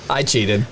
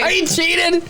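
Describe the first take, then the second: First: Said in the usual way. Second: Much higher, squeaky confession; high squeal. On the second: Real, not acted. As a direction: squeak it out guiltily. Confessing playfully.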